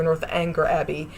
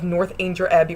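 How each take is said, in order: First: "Northanger" as north-ANG-ger; hard-g pronunciation. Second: "Northanger" as north-AIN-jer; soft-g pronunciation. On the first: Reviewer offering the alternative name, "Northanger" said north-ANG-ger. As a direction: say the word anger inside "Northanger". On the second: Reviewer praising the adaptation, "Northanger" said north-AIN-jer. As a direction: make the middle of "Northanger" rhyme with range. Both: Shown as a demonstration. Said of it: "pronounced two different ways".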